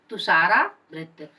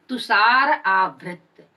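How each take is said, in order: First: "तुषारावृत" said as one word, the two vowels merged into a long आ; joined compound. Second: "तुषार आवृत" said slowly as two separate words, a small break between; split into parts. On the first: Teacher joins the compound again for students, slow and clear. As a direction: run "तुषारावृत" together as one smooth word. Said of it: "अ आ मिलकर के आ हो गया है". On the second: Teacher splits the compound for students, slow and clear. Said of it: "तुषार से र से अ और आवृत से आ". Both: Shown as a demonstration.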